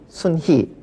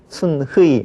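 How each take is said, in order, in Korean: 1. 마지막 모음은 단모음 i입니다. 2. 마지막 모음은 이중모음 ui입니다. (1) "그렇게 하면 되겠고요" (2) "표기대로 한다면"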